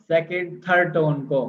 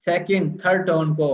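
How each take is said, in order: Both takes have the same delivery.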